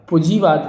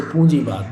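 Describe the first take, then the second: First: पूंजीवाद as "pujivad", no nasal; mispronounced पूंजीवाद. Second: Said in the usual way. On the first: Shown as a demonstration. Teacher showing a misspelling, पूंजीवाद without its nasal. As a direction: drop the n sound from पूंजीवाद. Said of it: "पूंजीवाद नहीं होता दोस्तों". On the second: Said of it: "पूंजीवाद बहुत important है".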